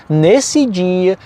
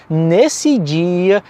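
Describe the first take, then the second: Both takes have the same delivery.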